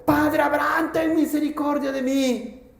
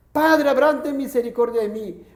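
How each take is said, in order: First: A hint of a pleading cry from hell, higher; rich man crying out. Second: Rich man crying out. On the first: Rich man in torment begs Abraham, mild pleading cry. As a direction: beg Father Abraham for mercy. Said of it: "dando voces, dijo". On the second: Acted. Rich man in hell calls Abraham, mild pleading shout. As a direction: call out to Father Abraham for mercy. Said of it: "Entonces él grita, da voces".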